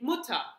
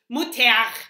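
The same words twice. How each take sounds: First: The final r sounds like a reduced a. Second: The final r is made in the throat. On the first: The speaker calls it right. "usually we just say Mutter ... you're not using your throat" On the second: The speaker calls it wrong. "Wir sagen nicht Mutter"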